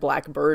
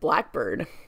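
First: The stress falls on the word bird. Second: The stress falls on the word black. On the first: "or it's on bird, rather" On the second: It is a specific kind of bird. "as in the specific kind of bird, it switches"

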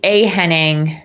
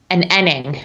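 First: The h at the start of Henning is pronounced. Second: The h at the start of Henning is dropped. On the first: This is the American English form. "In American English, it'd be a Henning" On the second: This is the British English form. "in British English, it would be an Enning"

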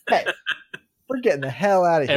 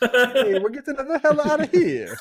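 First: It is said without an Italian accent. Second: It is said in a Mario-style Italian accent.

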